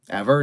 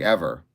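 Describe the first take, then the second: First: Rising question tune on "Ever?"; "Ever?" asked in disbelief, voice lifting at the end; incredulous question. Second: Falling statement tune on "Ever.", lower; "Ever." answered flatly, dropping at the end; flat confirmation. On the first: Asking the girl in disbelief. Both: Retold or imitated.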